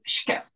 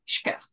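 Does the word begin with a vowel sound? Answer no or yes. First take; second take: no; no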